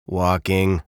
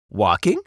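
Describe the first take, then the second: First: Curt, mildly grumpy answer; a touch of grumpiness, falling tone; lightly voiced sullen bird. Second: "Walking?" rising at the end; "Walking?" lifted questioningly at the end; tentative guess. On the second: A narrator's reading. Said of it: "guessed Beaver".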